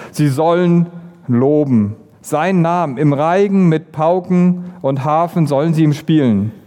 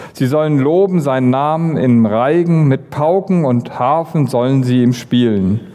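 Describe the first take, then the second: The two takes are said the same way.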